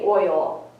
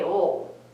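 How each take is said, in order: First: The vowel is a full oy glide. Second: The vowel is flattened with no oy glide. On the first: The speaker calls it right. "I never say oil" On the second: The speaker calls it wrong. "we also have a lot of trouble with O I"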